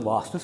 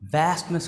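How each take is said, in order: First: It is said with a British accent. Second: It is said with an American accent.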